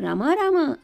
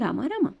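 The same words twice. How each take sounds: First: The name is called loudly. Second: The name is called softly.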